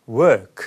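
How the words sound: The R sound is dropped, the vowel held long. "R 사운드가 빠지면"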